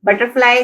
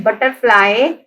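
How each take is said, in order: First: Said in the usual way. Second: butterfly measured out as but-ter-fly; teacher parting but, ter, fly in butterfly; syllable by syllable. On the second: Shown as a demonstration. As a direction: sound out butterfly in three beats. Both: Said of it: "हमारे पास three syllables हैं".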